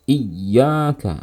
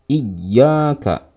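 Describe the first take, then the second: The two takes are said the same way.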